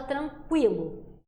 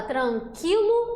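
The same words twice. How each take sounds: First: Tranquilo said as tran-kwi-lo with the w sound; sounded U version. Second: Tranquilo said as tran-ki-lo with no w sound; silent U version. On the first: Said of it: "ou a gente fala tranquilo". (tranquilo com o som do U, tran-kwi-lo) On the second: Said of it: "a gente fala tranquilo ou". (tranquilo sem o som do U, tran-ki-lo) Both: Shown as a demonstration.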